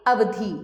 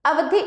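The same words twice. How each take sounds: First: अवधि with the final i held long, as अवधी; long vowel demo. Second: अवधि high and louder with a short final i; short vowel demo. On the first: Teacher contrasting the second word, long-vowel demo of अवधि. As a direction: lengthen the last vowel of अवधि to ee. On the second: Teacher reading a word pair, high short-vowel demo of अवधि. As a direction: end अवधि on a quick, short i. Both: Shown as a demonstration. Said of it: "वर्तनी में केवल ह्रस्व दीर्घ स्वर का".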